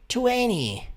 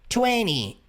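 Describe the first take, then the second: First: The word is said lightly with sounds reduced. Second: The word is said lightly with sounds reduced.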